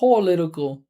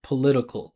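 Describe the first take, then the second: First: The first syllable is stressed with a full vowel. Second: The first syllable is unstressed with a reduced vowel. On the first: The speaker calls it wrong. "you hear how she's saying pole, that's that's giving a lot of attention" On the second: The speaker calls it right. "we would just say p p p p p with a schwa political like that"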